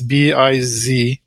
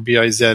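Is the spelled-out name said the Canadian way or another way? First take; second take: another way; Canadian. First: The letters are spelled in a non-Canadian way. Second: The letters are spelled in the Canadian way.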